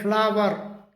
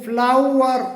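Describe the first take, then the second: First: फ्लावर with a flat aa, FLAA-var; mispronounced फ्लावर, flat aa; wrong pronunciation. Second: फ्लावर slow and stressed as FLOU-er, with an ou glide; slow correct फ्लावर; correct pronunciation. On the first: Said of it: "जो कि बिल्कुल गलत है". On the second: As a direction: slowly model फ्लावर as FLOU-er. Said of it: "सही जो pronunciation होता है". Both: Shown as a demonstration.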